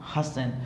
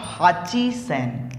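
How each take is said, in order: First: It is said contracted as hassen. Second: It is said in full as hachi sen. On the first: The speaker calls it right. "इसकी जगह हम बोलते हैं हसन" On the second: The speaker calls it wrong. "हाची सेन नहीं होता है"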